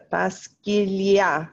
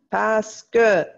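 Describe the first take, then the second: First: "parce qu'il y a" slow, the e dropped and run into qu'il; elided qu'il. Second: "parce que" said plainly as two words, the e fully voiced. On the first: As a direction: glide "parce qu'il y a" together, no e. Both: Shown as a demonstration. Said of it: "So our parce que becomes parce qu'il y a".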